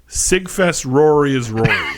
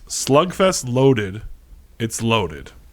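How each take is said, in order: First: It is said in Sammy's thick Dominican accent. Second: It is said in the speaker's own accent.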